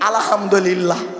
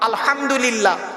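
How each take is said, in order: First: The h is soft and plain, not throaty. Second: The h is harsh, from deep in the throat. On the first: All torn clothes are yours. The speaker calls it wrong. "আর আমরা উচ্চারণ করি কি?" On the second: All praise is yours. The speaker calls it right. "গলার ভেতর থেকে হেটা উচ্চারণ করবেন"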